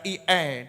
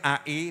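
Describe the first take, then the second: First: The letters are read with English letter names. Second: The letters are read with Indonesian letter names. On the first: "dibaca I E dalam bahasa Inggris" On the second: "A I dalam bahasa Indonesia"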